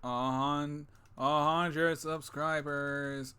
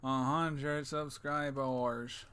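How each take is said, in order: First: Very slow announcement. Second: Drawn-out, very slow; very slow announcement. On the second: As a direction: stretch every word slowly. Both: Shown as a demonstration. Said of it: "Oh, whoops".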